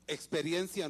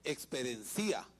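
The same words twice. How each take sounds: First: The stress falls on the syllable 'ren'. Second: The stress falls on the final 'i'. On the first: The speaker calls it right. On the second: The speaker calls it wrong.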